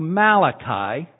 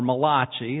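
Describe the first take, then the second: First: The name is said in plain English. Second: The name is said with an Italian-style pronunciation.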